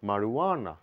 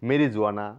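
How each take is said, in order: First: The J sound is silent. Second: The J sound is pronounced. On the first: The speaker calls it right. "বলবো মারুয়ানা" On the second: The speaker calls it wrong. "মেরিজুয়ানা মারজুয়ানা না বলে"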